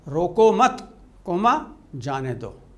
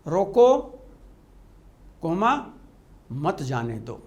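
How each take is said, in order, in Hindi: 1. विराम ठीक शब्द mat के बाद आता है। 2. विराम ठीक शब्द roko के बाद आता है।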